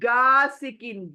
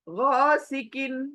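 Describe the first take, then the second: First: It starts with a plain g sound. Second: It starts with a gargled throat sound. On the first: The speaker calls it wrong. "It is not गा सिकिन, गा सिकिन नहीं" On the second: The speaker calls it right. "गार्गलिंग की जगह पर बोलना है इसको"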